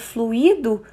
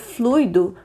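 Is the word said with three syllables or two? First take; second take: three; two. First: Three syllables, stress on the middle syllable. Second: Two syllables, stress on the first syllable. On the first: The past participle of the verb to flow. "um acento gráfico na letra I. Forma-se, portanto, uma palavra trissílaba, constituída por um hiato" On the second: Something that flows or spreads like a liquid. "pronunciada semelhantemente a gratuito, como um ditongo decrescente"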